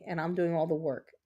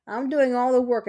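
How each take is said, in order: First: Said in the usual way. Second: Loud and higher, exasperated; indignant outburst. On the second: Real, not acted. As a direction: blurt it out, fed up. Complaining about partner dancing around.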